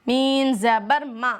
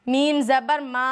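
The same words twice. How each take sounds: Both takes have the same delivery.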